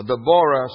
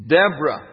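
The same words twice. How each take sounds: First: "Deborah" as duh-BOR-uh; Deborah stressed on second syllable. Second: "Deborah" as DEB-ruh, loud, stress up front; Deborah stressed on first syllable. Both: Shown as a demonstration. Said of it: "some people pronounce it".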